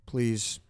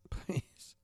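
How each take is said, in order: First: Said in the usual way. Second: Breathy laughing whisper of please; a whispered, half-laughing "please" to the listeners. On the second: Real, not acted. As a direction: let "please" slip out as a chuckled whisper. Begging listeners, then whispered again.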